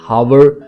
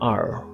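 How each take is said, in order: First: The word begins with an h sound. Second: The word begins with a vowel, h silent. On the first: The speaker calls it wrong. "हावर no" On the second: The speaker calls it right. "It's आर"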